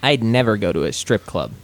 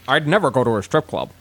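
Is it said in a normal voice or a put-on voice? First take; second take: normal; put-on. First: It is said in a plain normal voice. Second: It is said with feeling in a put-on voice.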